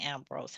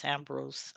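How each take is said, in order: First: Ambrose ending in "-brohz"; country pronunciation. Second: Ambrose ending in "-brooz", said softly; corrected pronunciation. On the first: Host admitting how she always says Ambrose, country "-brohz". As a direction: say Ambrose with a long "oh" in the second syllable. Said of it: "that little country accent always kick in". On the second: Host correcting herself on guest's name, soft "-brooz". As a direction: say Ambrose with an "oo" in the second syllable, quietly. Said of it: "I always say Ambrose". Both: Shown as a demonstration.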